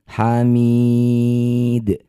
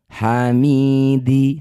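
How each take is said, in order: First: The word ends on a stopped, bounced consonant. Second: The word ends on an open final vowel. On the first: The reading stops at this word. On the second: The reading continues without stopping.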